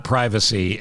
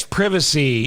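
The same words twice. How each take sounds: First: "privacy" with a long i, PRY-vuh-see; the American long-i "privacy". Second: "privacy" with a short i, PRIV-uh-see; the British short-i "privacy"; British privacy, imitated. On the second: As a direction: say "privacy" starting like "privy". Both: Shown as a demonstration. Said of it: "privacy is what we say".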